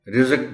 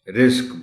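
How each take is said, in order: First: A vowel separates the last two consonants. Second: The last two consonants join with no vowel. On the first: The speaker calls it wrong. "बोल देते हैं लोग" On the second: The speaker calls it right. "रिज़्क बोलना है"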